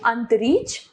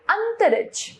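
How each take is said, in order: First: अंतरिक्ष as ant-reech; wrong pronunciation. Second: Said in the usual way. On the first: Shown as a demonstration. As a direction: say अंतरिक्ष with a long ee and lost middle vowel. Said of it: "अशुद्ध रूप". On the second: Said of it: "इसका शुद्ध रूप".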